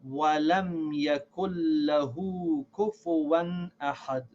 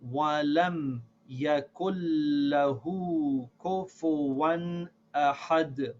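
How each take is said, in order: First: The line is read at a faster pace. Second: The line is read at a slower pace.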